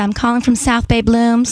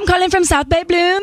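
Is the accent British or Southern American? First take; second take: Southern American; British. First: It is said in a Southern American accent. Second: It is said in a British accent.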